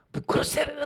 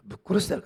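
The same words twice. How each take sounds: First: Retold yell, pitched much higher; grito imitado. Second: Said in the usual way. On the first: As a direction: imitate someone yelling a threat, high-pitched. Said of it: "大声で叫んでですね". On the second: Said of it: "かな".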